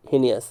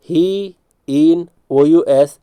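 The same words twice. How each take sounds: First: Said in the usual way. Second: He in O U S very slowly, in separate pieces; broken-up spelling drill. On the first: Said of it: "heinous भी पढ़ते हैं". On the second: Shown as a demonstration. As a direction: stretch "He", "in", then letter out O U S. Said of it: "यहाँ पर he". (He in O U S, बहुत धीरे, अलग-अलग टुकड़ों में)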